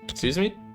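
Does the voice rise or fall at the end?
rise. It is said as a rising question.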